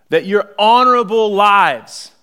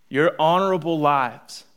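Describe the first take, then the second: First: "honorable" stressed, loud and slow; "honorable" rung out louder and higher; preached emphasis. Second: Said in the usual way. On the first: Real, not acted. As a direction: lean hard on "honorable".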